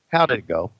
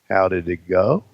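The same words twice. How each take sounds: First: It is asked in a plain, neutral tone. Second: It is asked in a knowing, suggestive tone. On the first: It is an innocent question about the meeting. "there's two ways to say this" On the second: It hints that something sexual happened. "or oh"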